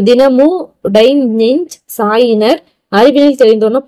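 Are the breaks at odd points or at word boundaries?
odd points. The line is broken at odd points mid-word. The meaning cannot be understood. The speaker calls it wrong. "புரியுதா? புரியல"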